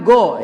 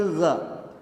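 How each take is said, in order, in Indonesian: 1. Diawali bunyi g biasa yang keras. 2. Diawali bunyi gh di tenggorokan. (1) "bukan go ya" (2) "tapi gha"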